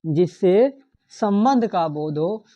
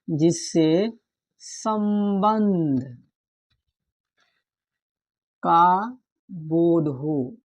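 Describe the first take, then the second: First: Said in the usual way. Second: Very slow, word by word; slow dictation. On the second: Shown as a demonstration. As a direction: spell the definition out slowly for notes. (धीरे-धीरे लिखवाना)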